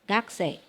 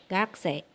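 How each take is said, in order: Both takes have the same delivery.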